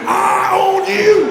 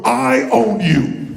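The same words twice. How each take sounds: First: Slow, loud and higher, fully committed; mean it. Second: Slow, deliberate, a bit louder; slow emphatic claim. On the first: Challenging a neighbour, slow loud declaration. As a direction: declare it like you truly mean it. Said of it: "say it like you mean it". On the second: Pointing at a neighbour, slow firm claim. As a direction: spell it out to the person next to you. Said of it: "point at them and go". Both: Shown as a demonstration.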